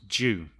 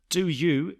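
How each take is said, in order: First: The words blend into one short syllable. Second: Both words are said fully and separately.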